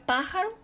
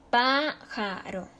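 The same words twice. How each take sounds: First: Said in the usual way. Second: Pájaro slowly, PÁ drawn out, then ja-ro; PÁÁ... ja-ro, slow teacher demonstration; stress on first syllable. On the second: Shown as a demonstration. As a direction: stretch the PÁ of pájaro to show its stress. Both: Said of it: "su sílaba tónica está en antepenúltima sílaba".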